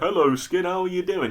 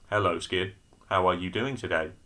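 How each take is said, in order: First: It is said with lively emotion. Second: It is said flatly, without emotion.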